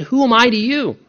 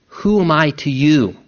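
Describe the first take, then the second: First: "who am I to you" pitched higher, falling at the end; pointed personal question. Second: "Who am I to you" asked evenly, falling at the end; measured question. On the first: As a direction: press "who am I to you" home to the listener, voice raised in pitch. Turns question personally on listener. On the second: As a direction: pose "Who am I to you" as a measured quotation, pitch kept down. Quotes Jesus's question, first measured take. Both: Acted.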